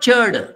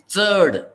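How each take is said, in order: First: The first sound is like English ch. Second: The first sound is like ts, tongue on teeth. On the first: The speaker calls it wrong. "It is not churd" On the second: The speaker calls it right. "It is churd"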